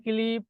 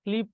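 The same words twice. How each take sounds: First: Second "ক্লিপ" as ki-lip, two syllables; vowel inserted after k. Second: Said in the usual way. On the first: Shown as a demonstration. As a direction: put an i between k and l in "ক্লিপ". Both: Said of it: "এটা কোন স্বরাগমের উদাহরণ".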